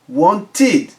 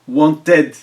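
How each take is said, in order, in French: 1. La fin se prononce comme 'id'. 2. La fin se prononce comme 'ed'.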